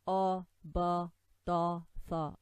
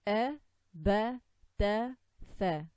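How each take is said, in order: First: The vowels are heavy and dark, thickening letters. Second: The vowels are light and thin, like apple. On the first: The speaker calls it wrong. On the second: The speaker calls it right.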